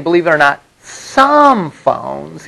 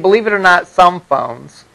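First: Some phones, with weight on "some phones"; emphasized. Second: Said in the usual way. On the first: Shown as a demonstration. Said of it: "I'm emphasizing it". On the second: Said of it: "I'm not saying".

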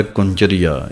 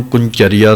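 First: ਕੁੰਚਰੀਆ with a soft, unstressed "cha"; soft reading. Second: ਕੁੰਚਰੀਆ as "kun-chariya", weight on the ch; doubled-consonant misreading. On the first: Teacher modelling correct text, ਕੁੰਚਰੀਆ read softly. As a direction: say ਕੁੰਚਰੀਆ lightly, no weight on ch. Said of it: "ਇਹ ਪਾਠ ਪੋਲਾ ਹੀ ਪੜ੍ਹਨਾ ਹੈ". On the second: Teacher showing wrong reading, ਕੁੰਚਰੀਆ with stressed "cha". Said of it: "ਇਹਨੂੰ ਕੁੰਚਰੀਆ ਨਹੀਂ ਪੜ੍ਹਨਾ". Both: Shown as a demonstration.

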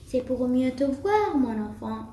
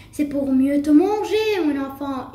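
First: Understated, sly wolf reply; mildly chuckling wolf. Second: Loud, menacing wolf reply; wolf's yell. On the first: Wolf reassuring the girl about his eyes, understated chuckle. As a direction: answer evenly, dropping away at the end. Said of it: "dit le loup en gloussant". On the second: Wolf about to eat the girl, yelling. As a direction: burst out louder on the threat. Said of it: "hurla le loup". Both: A narrator's reading.

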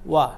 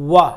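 First: ওয়া touched very lightly, barely voiced w. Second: ওয়া said full and heavy with a strong w; heavy wrong wa. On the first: Teacher showing students the correct light ওয়া. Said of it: "খুব হালকা করে". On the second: Teacher demonstrating the mistake students make, a heavy ওয়া. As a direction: push the ওয়া hard, the wrong way. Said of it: "ঠিক নয়". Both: Shown as a demonstration.

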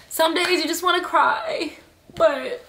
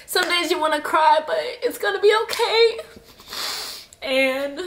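First: High, tight voice on the edge of tears; tearful. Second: High, breaking voice, crying through it. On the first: Comforting fellow endo sufferers, on the edge of tears. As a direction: push the words out through tears. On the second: Telling viewers it will be okay while crying. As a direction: reassure while tears take over. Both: Real, not acted. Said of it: "I'm sorry I'm crying".

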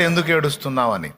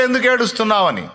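First: A hint of the Lord's tender concern; the Lord asking gently. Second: A slightly raised, questioning angel voice; lightly voiced angels asking. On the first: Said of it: "బయట ప్రభు అడిగాడు". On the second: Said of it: "లోపల దూతలు అడిగారు".

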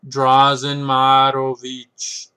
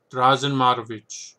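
First: Slow, louder hammed-up Russian accent. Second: Put-on Russian accent. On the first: Book reviewer announcing a chess author's name, heavy mock Russian accent. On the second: Book reviewer repeating a chess author's name, light mock Russian accent. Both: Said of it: "put on this terrible Russian accent".

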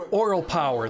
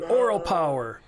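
First: Slogan proclaimed. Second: Higher, louder slogan with weight on oral; slogan proclaimed. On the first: Reading the slogan on the shirt. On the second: Performer on stage declaring the shirt's slogan to the audience, higher and louder. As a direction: call out Oral power like a rally cry. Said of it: "And I said". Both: Retold or imitated.

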